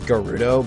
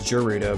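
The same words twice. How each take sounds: First: It begins with a hard G sound. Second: It begins with a soft G sound. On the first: This is the original pronunciation. "the of true pronunciation is Gerudo" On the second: This is the speaker's habitual English-style pronunciation. "I've always pronounced it as Gerudo because, you know, like a soft G"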